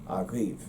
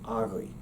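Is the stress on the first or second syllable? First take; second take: second; first. First: The stress is on the second syllable. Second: The stress is on the first syllable. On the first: This is the Munster pronunciation. "It has a the V sound on the end and the stress on the second syllable" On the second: This is the Connacht pronunciation. "in Connacht, it should be pronounced uh, closer to agri"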